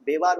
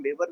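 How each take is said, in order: First: बेवार, stretch the second vowel into a long aa; say Bewar with long aa. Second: बेवर, short clipped a in the second syllable; say Bewar with short a. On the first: Teacher giving the local name, long aa in बेवार. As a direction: pronounce बेवार as be-waar, open long aa. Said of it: "बेवार बोलते हैं". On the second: Teacher offering the alternate name, short a in बेवर. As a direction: pronounce बेवर as be-wer, quick neutral vowel. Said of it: "बेवर भी बोलते हैं". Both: Shown as a demonstration.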